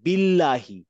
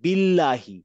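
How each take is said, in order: First: The l sound is light and thin. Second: The l sound is light and thin.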